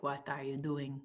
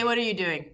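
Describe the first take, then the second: First: Soft, badly faked Russian accent. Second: Said in the usual way. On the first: Shown as a demonstration. Streamer showing her bad accents, clumsy Russian accent. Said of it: "I'm really bad at accents". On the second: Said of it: "Just say".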